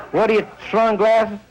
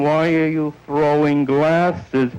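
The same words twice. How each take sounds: First: South Philly slur. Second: "Why are you throwing glasses?" slow and carefully sounded out; spelled out clearly. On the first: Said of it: "the most insulting thing in the world to South Philly". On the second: The words made clear after the mumbled South Philly insult, said slowly. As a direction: spell out each word so it's finally understood. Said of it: "understanding, comprehension". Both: Retold or imitated.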